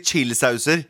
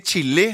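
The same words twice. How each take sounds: First: "chilisauser" with the second i swallowed; imitated mispronunciation. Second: "chili" with both i's pronounced; standard pronunciation. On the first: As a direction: mimic "chilisauser" said as chill-sauser. («chilisauser» etterlignet som «chill-sauser») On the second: Shown as a demonstration. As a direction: say "chili" in two clear syllables. («chili» uttalt med begge i-ene) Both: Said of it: "for du sier chilisauser".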